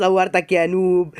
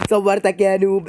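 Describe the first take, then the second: First: Slow, drawn-out gloating; mocking "صورتك" stretched slowly; slow taunt. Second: Said in the usual way. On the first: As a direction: rub it in, word by word.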